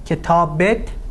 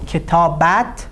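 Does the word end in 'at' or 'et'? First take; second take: et; at. First: The ending is pronounced with an 'e' vowel. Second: The ending is pronounced with an 'a' vowel. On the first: This is the everyday spoken form. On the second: This is the written, formal form.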